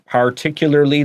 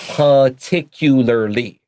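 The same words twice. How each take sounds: First: The R sounds are clearly pronounced. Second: The R sounds are left out.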